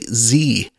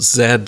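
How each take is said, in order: First: The letter is said the American way, zee. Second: The letter is said as zed.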